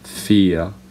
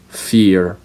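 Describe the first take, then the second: First: It is spoken in a British accent. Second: It is spoken in an American accent. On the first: "fear for British" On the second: "fear for Americans"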